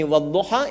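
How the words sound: The final vowel is an open 'a'.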